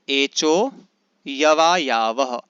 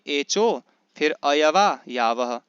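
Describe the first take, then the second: First: No vowel is sounded before 'yava'. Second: An 'a' vowel is sounded before 'yava'. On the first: The speaker calls it right. "ऐसा इसको पढ़ेंगे हम लोग" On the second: The speaker calls it wrong. "ऐसे नहीं"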